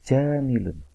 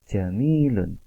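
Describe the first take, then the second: First: The middle vowel is said short. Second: The middle vowel is held long. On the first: The speaker calls it wrong. "bukan jamilun" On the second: The speaker calls it right. "tapi jamilun"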